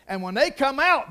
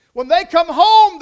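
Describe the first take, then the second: First: Said in the usual way. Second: "home" hit loud and high, drawn out slow; stress on home. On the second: Real, not acted. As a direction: lean hard on the word "home". Contrast of leaving and coming home.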